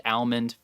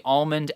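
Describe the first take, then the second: First: "almond" with a short flat A as in cat; alternative pronunciation. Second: "almond" with a broad AHL, the L heard; alternative pronunciation. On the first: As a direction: say "almond" as AL-mund. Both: Shown as a demonstration. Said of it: "you can say almond".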